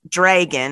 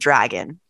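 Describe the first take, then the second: First: It is said with a Minnesotan accent. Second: It is said without a Minnesotan accent.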